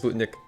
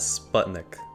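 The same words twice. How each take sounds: First: It is said with a native Russian pronunciation. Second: It is said with a typical English pronunciation. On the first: The speaker calls it right. "the real pronunciation is Sputnik" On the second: The speaker calls it wrong. "most English speakers would actually pronounce this as Sputnik"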